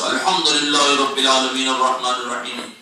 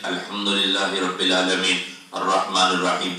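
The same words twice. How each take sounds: First: It is said loudly. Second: It is said quietly.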